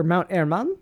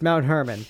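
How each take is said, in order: First: "Mount Hermon" with a Spanish accent, silent h and rolled r, ending on a rising question. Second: Said in the usual way. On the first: Shown as a demonstration. Host second-guesses the name in a Spanish accent. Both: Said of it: "why say it in a Spanish accent".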